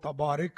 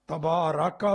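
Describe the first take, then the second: First: The vowel after r is i. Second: The vowel after r is a. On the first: The speaker calls it wrong. "तबारिक नहीं। रा पर जेर नहीं पढ़नी" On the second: The speaker calls it right. "तबारका व ताला कहो"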